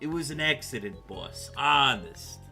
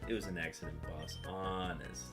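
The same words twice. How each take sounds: First: It is read in a put-on mafia voice. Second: It is read in a normal voice.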